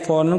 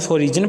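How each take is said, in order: First: It is said in two syllables, ending in 'ren'. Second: It is said in three syllables with a 'j' sound. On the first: The speaker calls it right. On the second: The speaker calls it wrong.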